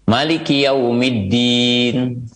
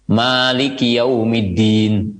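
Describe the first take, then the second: First: The vowel after the m is short. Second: The vowel after the m is long.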